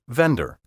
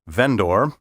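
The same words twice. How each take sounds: First: The word is said plainly with a relaxed ending. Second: The word is overpronounced with a full final syllable. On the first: The speaker sounds ordinary and natural. The speaker calls it right. "Say juror, vendor" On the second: The speaker sounds pompous and pretentious. The speaker calls it wrong. "pompous lawyers and judges often pronounce these words"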